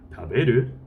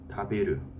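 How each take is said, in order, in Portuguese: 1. O tom sobe no final. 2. O tom cai no final. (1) "Para fazer uma pergunta, em vez de perguntar taberu ka, eu vou fazer taberu" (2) "Presente informal afirmativo"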